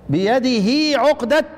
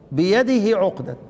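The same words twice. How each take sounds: First: بيده with a long drawn-out هي, slow; prolonged vowel. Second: بيده with the هي kept short; shortened vowel. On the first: Teacher demonstrating بيده with full lengthening. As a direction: stretch the vowel after بيده's هاء. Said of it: "ادي الاشباع". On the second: Teacher showing بيده with the short vowel. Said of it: "قال لك اقصر لصاحبنا ده". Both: Shown as a demonstration.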